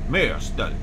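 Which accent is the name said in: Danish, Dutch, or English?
Danish. The name is said in a Danish accent. "How is it pronounced in Danish?"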